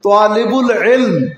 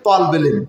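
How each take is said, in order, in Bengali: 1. এটা talibul বলা হয়, মাঝে i স্বর আছে। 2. এটা talbul বলা হয়, মাঝে কোনো স্বর নেই। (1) "সঠিক উচ্চারণটা কি?" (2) "আমরা কই যে তালবুল ইলম"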